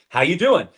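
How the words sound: It is asked as a casual routine greeting.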